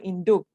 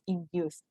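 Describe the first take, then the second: First: The word ends with a hard k sound. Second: The word ends with an s sound. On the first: The speaker calls it wrong. "It's not induque or induc or induki" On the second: The speaker calls it right. "This is induce"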